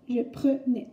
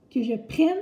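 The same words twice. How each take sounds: First: "prenais" said "preu-nais"; deliberate "prenais" with "euh" after pr; E as schwa. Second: "prenne" with a clear open è; louder, articulated "prenne", rhyming with "reine". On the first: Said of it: "faire la différence entre". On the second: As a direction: contrast demo of "prenne" with open E. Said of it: "voilà comment savoir". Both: Shown as a demonstration.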